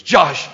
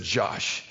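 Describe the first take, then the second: First: Sudden loud, higher-pitched call of the name; mock-menacing shouted summons; intimidating shout. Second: Low, soft, menacing name call; mock-menacing hushed address; quiet intimidation. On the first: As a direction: shout the name right in the kid's face. Huge friend confronts the boy face-to-face. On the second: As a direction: say the name low and quiet, looming over the kid. Big friend addresses the boy again.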